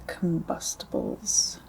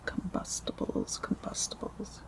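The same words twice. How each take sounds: First: Said in the usual way. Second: Very soft whispered echo; hushed ASMR word repetition; whispered repeats. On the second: Real, not acted. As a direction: whisper it, fading away.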